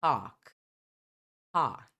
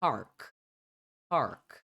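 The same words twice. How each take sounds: First: British "Park" with silent r; non-rhotic British Park; British pronunciation. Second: American "park" with a sounded r; American pronunciation. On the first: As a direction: say Park as "pahk". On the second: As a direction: say park with a full r before k. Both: Shown as a demonstration. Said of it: "Já no americano".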